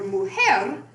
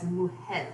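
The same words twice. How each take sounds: First: Said in the usual way. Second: "mujer" ending in an l sound, like mujel; final R as L. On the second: Shown as a demonstration. Lecturer showing lateralization, "mujer" with final L. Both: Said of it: "realizing it as an L".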